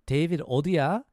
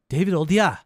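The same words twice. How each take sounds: First: The question sounds calm and neutral. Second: The question sounds sharp and angry. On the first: A plain casual question about where David is. "If we want it informal, we can just say 어디야" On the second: The speaker is annoyed and demanding where David is. "It's more like, where are you? In an angry way"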